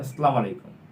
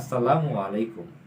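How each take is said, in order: First: No vowel is said after 'Assalam'. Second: An 'u' vowel is said after 'Assalam'. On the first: The speaker calls it wrong. "তিনি বলেছেন" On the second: The speaker calls it right. "উচ্চারণ হবে"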